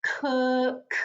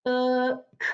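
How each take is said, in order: First: "cook" stretched, its sounds run together; slow blending. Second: "Cook" in separate sounds, k, uh, k; sounding out. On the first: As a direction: hold the vowel in "cook" and release the final k. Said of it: "My word is cook". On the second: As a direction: pause between each sound of "Cook". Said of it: "they're gonna make the uh sound". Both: Shown as a demonstration.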